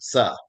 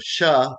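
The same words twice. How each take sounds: First: "sa" with a plain s onset; mispronounced S sound. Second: "sha" with a hushing sh onset; correct SH sound. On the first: Teacher showing how they failed the test, s for sh. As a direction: say "sa", s in place of sh. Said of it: "they would pronounce it". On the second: Teacher contrasting the test sounds, the correct sh. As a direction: say "sha", starting on sh. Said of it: "So instead of". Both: Shown as a demonstration.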